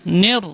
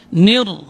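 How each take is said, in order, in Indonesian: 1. Vokal ini condong ke bunyi 'e'. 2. Vokal ini adalah bunyi 'i' yang jelas. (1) "Dia baca imalah. ... itu bunyinya jadi nir. Tidak boleh" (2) "harus dibaca dengan bunyi kasrah, itu bunyinya i"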